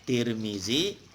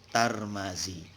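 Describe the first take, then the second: First: The name is said with i vowels. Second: The name is said with a vowels. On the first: "Kalau dibaca tir zi" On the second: "kalau dibaca tar ma"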